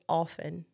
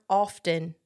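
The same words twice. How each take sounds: First: The t sound in the middle is silent. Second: The t sound in the middle is pronounced. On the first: The speaker calls it right. "You're not supposed to pronounce the T" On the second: The speaker calls it wrong. "It's not often"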